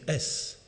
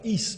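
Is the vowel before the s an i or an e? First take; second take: e; i. First: The syllable has an e vowel before s. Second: The syllable has an i vowel before s. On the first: This is how it was said aloud. "mais s" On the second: This is the written form. "il prononçait à haute voix pas is"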